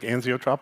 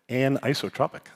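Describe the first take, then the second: First: The word starts with an 'anx' sound. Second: The word starts with an 'anis' sound. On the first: The speaker calls it wrong. "I've been saying it wrong for twenty years. I used to say like anxiotropic" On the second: The speaker calls it right. "So this weekend I learned anisotropic"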